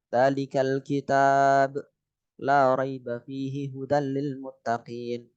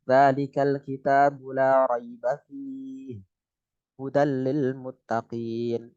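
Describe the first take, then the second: First: Slow recitation, pause after kitab; recite, stopping at the sign; recited with pause. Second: Slow recitation, pause after fihi; recite, stopping at the other sign; recited with pause. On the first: Teacher showing a waqf stop in Al-Baqarah, slow recitation. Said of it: "Kan bisa berhenti di kitab". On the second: Teacher showing the alternative stop point, slow recitation. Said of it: "bisa fi". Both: Shown as a demonstration.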